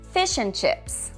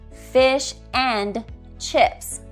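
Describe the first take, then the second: First: The word 'and' is weak and reduced. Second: The word 'and' is said in full.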